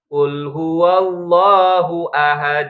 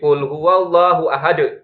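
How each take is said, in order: First: The final d is released smoothly without a catch. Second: The final d is jerked with a catch after it. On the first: The speaker calls it right. "Ngalir saja" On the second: The speaker calls it wrong. "jangan dihentak ya"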